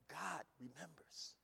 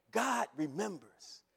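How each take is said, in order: First: "God remembers" slow and much softer; hushed emphasis. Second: Said in the usual way. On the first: Real, not acted. Repeated phrase, first take.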